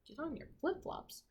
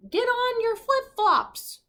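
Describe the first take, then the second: First: Said in the usual way. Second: High, slow, squeaky voice; misheard order. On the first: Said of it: "teacher repeats the misheard line". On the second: Acted. Crew hearing the captain's order wrong, high and slow. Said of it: "the crew heard".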